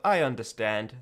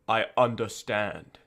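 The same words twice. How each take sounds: First: It is said in a casual, light tone. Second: It is said in a grave, serious tone.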